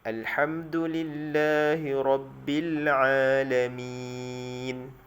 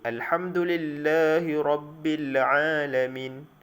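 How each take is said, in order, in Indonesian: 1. Dibaca dengan huruf vokal akhir dipanjangkan. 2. Dibaca cepat dengan huruf mad panjang dipendekkan. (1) "kita ambil bacaan empat harakat" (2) "Jangan kita baca dengan laju sehinggakan hilang huruf mad"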